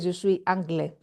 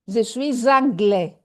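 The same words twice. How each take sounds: First: The S of suis is silent before anglais. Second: The S of suis is linked to anglais. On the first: The speaker calls it wrong. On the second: The speaker calls it right.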